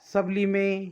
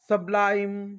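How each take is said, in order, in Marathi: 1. तो 'lee-meh' असा दोन अक्षरांत संपतो. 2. तो 'lyme' असा एका अक्षरात संपतो. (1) "ते विद्यार्थी असे वाचू शकतात" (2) "IME येतो तर त्याचा उच्चार आईम"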